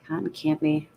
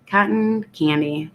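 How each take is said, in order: First: Softer, stuffed-up delivery of the name; congested. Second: Said in the usual way. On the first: Real, not acted. Reading a drink name to stream chat, suddenly congested. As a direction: say it with a blocked-up nose. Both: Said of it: "I just got congested all of a sudden".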